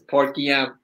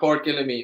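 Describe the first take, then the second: First: The name ends sounding like 'Guillaume'. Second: The name ends sounding like 'Gillamine'. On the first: The speaker calls it right. "It's Port Guillaume" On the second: The speaker calls it wrong. "That's not how you pronounce it"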